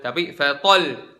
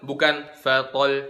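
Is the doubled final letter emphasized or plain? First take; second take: emphasized; plain. First: The doubled final letter is pushed out with force. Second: The doubled final letter is said flat, without force. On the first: The speaker calls it right. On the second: The speaker calls it wrong.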